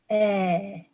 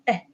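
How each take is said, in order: First: The vowel is held for a short time. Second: The vowel is clipped extremely short. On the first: "short vowel" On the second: "very short"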